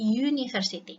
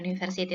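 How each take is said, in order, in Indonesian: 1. Dimulai dengan bunyi konsonan y. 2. Dimulai dengan bunyi vokal biasa. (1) "tapi university. Dibacanya university" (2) "ini bukan university"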